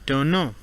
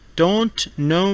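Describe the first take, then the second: First: The T sound after N is dropped. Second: The T sound after N is pronounced.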